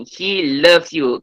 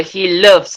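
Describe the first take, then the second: First: Loves drawn out slowly so the final S is clear; a slow teacher demo of loves with its S; slow stress on loves. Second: Said in the usual way. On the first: Shown as a demonstration. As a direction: say He loves you very slowly, leaning on the S of loves. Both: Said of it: "ada S ni".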